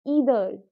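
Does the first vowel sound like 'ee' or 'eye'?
ee. The word begins with an 'ee' vowel sound. "अगर मैं इसको ब्रिटिश की तरह प्रोनाउंस करूँ"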